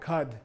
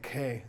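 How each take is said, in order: First: The word ends with a d sound. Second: The word ends without a d sound. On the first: This is the older form kept in outlying regions. "only in the outlying areas like Ladakh or Mongolia, you will hear Khad" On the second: This is the main dialect most speakers use. "in Lhasa dialect... we would say K"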